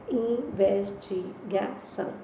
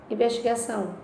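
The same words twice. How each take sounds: First: "Investigação" said very slowly, syllable by syllable, with a rising end; slow syllable split. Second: Said in the usual way. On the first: Shown as a demonstration. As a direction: stretch "Investigação" out slowly so each syllable is heard. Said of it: "Onde tem o encontro?". ("Investigação" bem devagar, separando as sílabas)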